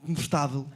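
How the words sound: The unstressed vowels are dropped into a consonant cluster. This is the Portuguese way of saying it.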